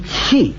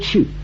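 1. 这个字读 'qi'，韵母是不圆唇的。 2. 这个字读 'qu'，韵母是圆唇的。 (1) "他说气" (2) "他不说去"

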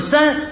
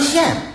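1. 标准普通话读作'san'。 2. 山东方言读作，像'xian'。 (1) "比如三" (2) "三不叫三，叫县"

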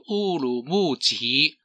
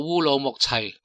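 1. 这个名字用普通话的发音。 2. 这个名字用粤语的发音。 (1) "国语应该读做乌鲁木齐" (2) "粤语读做乌鲁木齐"

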